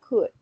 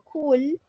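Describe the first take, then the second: First: The L sound is silent. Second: The L sound is pronounced. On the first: The speaker calls it right. "yo elimino la L" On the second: The speaker calls it wrong. "No digo"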